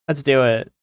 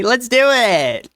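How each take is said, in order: First: Said in the usual way. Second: High, slow, drawn-out cheer; excited. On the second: Real, not acted. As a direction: stretch it out, gleeful and high. Excited agreement to stream plan.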